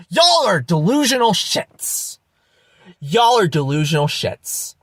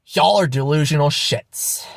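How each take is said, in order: First: Angry outburst. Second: Restrained repeat of the insult; subdued contempt. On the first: Vlogger berating deluded believers, angry outburst. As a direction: lash out, pitch leaping on Y'all. Exasperated repeated insult to viewers. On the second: Vlogger judging deluded believers, subdued contempt. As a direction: state it as settled fact. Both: Real, not acted.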